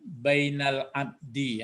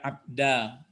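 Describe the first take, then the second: First: The word ends in an i vowel. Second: The word ends in an a vowel. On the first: The speaker calls it right. "kenapa abdi dibaca tadi ya?" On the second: The speaker calls it wrong. "Tidak abda"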